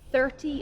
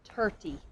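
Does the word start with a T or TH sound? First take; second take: TH; T. First: The word starts with a TH sound. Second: The word starts with a plain T sound. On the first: The speaker calls it right. "thirty is correct" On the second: The speaker calls it wrong. "not thirty"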